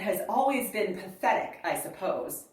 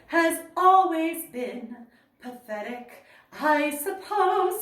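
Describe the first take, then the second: First: It runs on with no pause after 'pathetic'. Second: There is a pause after 'pathetic'. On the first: "I would not break between has always been pathetic, I suppose" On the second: "The music says"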